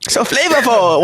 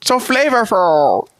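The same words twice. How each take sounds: First: Chinese grandpa voice. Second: Put-on slow, drawn out, higher old man; Chinese grandpa voice. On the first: Retold or imitated. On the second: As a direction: stretch out "So flavorful" like a grandpa. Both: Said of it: "Why did you say it like a Chinese grandpa".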